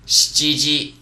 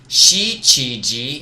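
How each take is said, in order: First: The vowel after sh is devoiced. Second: The vowel after sh is fully voiced. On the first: The speaker calls it right. "you're not going to really hear the e sound" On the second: The speaker calls it wrong. "instead of shichiji"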